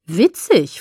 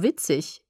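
First: Empörte Rückfrage, „Witzig?“ mit Tonsprung nach oben; „Witzig?“ ungläubig zurückfragen, leicht entrüstet; leicht empört. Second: Said in the usual way. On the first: A narrator's reading. (ein wenig entrüstet nachgefragt) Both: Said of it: "fragte ich leicht empört".

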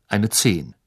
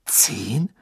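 First: Said in the usual way. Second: Hushed questioning "Zehn?" that rises at the end; understated incredulous question; disbelieving. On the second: A narrator's reading. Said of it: "sagte Harry ungläubig".

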